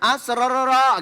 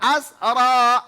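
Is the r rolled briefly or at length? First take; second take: at length; briefly. First: The r is rolled many times over. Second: The r is rolled only briefly, once. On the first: The speaker calls it wrong. "Ngulangnya jangan asrororo gitu ya" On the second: The speaker calls it right. "Satu saja ya"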